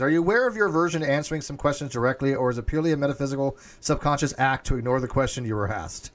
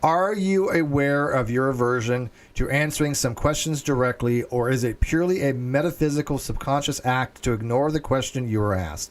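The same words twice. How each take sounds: First: The question is read very fast. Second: The question is read more slowly.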